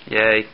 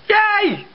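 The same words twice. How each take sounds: First: It is said in a flat, unenthusiastic way. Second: It is said in an excited, enthusiastic way.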